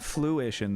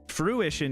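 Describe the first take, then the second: First: The sound after the f is an l. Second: The sound after the f is an r. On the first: The speaker calls it wrong. "not fluition though" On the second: The speaker calls it right.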